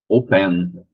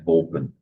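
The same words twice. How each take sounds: First: The stress is on the second syllable. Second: The stress is on the first syllable. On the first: The speaker calls it wrong. "Não é open" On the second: The speaker calls it right. "é open. A primeira sílaba é mais forte"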